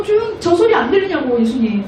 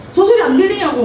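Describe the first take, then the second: First: Mock indignant priest. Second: Higher, irritated repeat of the complaint; mock indignant priest. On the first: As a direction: whine angrily about the noise. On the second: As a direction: press the complaint again, annoyed. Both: Angry priests complain to Jesus.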